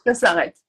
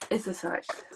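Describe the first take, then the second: First: "Ça s'arrête" said again louder, with weight on "Ça"; emphatic repeat. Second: Quiet letdown. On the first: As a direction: repeat "Ça s'arrête" firmly, pressing on "Ça". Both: Real, not acted.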